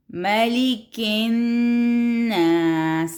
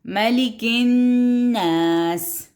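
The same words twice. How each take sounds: First: Slow chant, doubled n in الناس held; slow tajweed recitation; recitation with shadda. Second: Slow chant stressing the doubled n of الناس; slow recitation; recitation with shadda. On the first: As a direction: draw out ملک الناس slowly. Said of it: "نون کے اوپر پھر شد آ گئی". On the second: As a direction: hold the nn in الناس. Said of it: "پھر شد آ گئی". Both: Shown as a demonstration.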